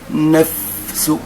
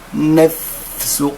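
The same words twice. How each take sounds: No difference in how they are said.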